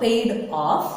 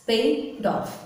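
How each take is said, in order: First: "paid off" said slowly as two separate words; separated slow wrong way. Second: "paid off" linked as "pai-doff"; linked native way. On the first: Teacher shows the wrong, split way to avoid, slowly. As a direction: pull "paid" and "off" apart, slowly. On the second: Teacher gives the correct native linking after the wrong one. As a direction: glide the d straight into "off". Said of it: "not paid off". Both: Shown as a demonstration.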